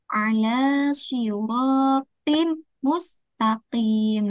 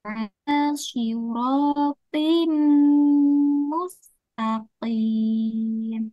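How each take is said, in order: First: The m sound is short without a nasal hum. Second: The m sound is held long with nasal hum. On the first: The speaker calls it wrong. "itu salah" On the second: The speaker calls it right. "Ditekan dua harokat dengan suara de dengung"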